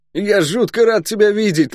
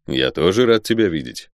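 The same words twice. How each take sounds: First: High, excitable soldier greeting a friend; high-pitched, exuberant guardsman voice; boisterous guardsman, delighted. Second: Said in the usual way. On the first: Acted. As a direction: pipe it up in joyful surprise. Guard Luk greets his friend.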